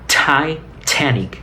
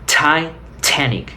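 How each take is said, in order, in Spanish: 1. La primera t es fuertemente aspirada, como escupiendo. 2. La primera t es fuertemente aspirada, como escupiendo.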